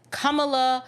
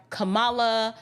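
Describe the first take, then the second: First: Kamala sounded out as KAH-muh-luh; stress on first syllable. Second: Kamala sounded out as kuh-MAH-luh; stress on second syllable. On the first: Host unsure of the name, Kamala stressed on the first syllable. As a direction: lean on the opening syllable of Kamala. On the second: Host offering the alternative, Kamala stressed on the middle syllable. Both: Shown as a demonstration. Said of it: "I'm not sure if it's".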